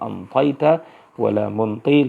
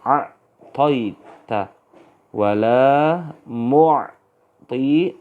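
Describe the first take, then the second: First: An n sound comes before the t. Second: An ain sound comes before the t. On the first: This is the old dialect of the people of Yemen. "dekat dengan ta, nanti diganti dengan nun" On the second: This is the standard original form. "ini aslinya"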